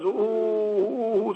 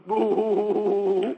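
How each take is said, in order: First: Drawn-out imitated wail, "ooh"; long wail sound. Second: A brief imitated sob, "boo"; short sob sound. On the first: Teacher imitating a long crying sound. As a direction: let the "ooh" stretch like a long cry. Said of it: "or in long sounds". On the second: Teacher imitating a short crying sound. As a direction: give one quick crying "boo". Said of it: "people cry in short sounds". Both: Shown as a demonstration.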